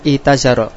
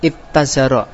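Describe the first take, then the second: First: The t sound is single, after a long i. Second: The t sound is doubled, after a short i. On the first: The speaker calls it right. "Menjadi itazaro" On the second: The speaker calls it wrong. "bukan ittazaro"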